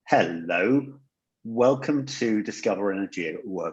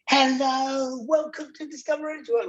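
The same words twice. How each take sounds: First: It is said in a calm, relaxed way. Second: It is said with a hyped, high energy.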